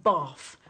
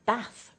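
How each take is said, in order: First: Bath with a broad Cockney vowel, front and flat; bath in old Cockney, flat front vowel; Cockney pronunciation. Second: Bath with the refined long back vowel; bath said the genteel way, long back vowel; refined pronunciation. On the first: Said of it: "a pronunciation like bath would have been very characteristic of Cockney". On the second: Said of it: "a much more refined pronunciation". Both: Shown as a demonstration.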